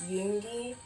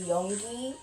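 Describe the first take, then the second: First: The first syllable sounds like 'you'. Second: The first syllable sounds like 'yo'. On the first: The speaker calls it right. "instead of [name]" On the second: The speaker calls it wrong. "I do sometimes say [name]"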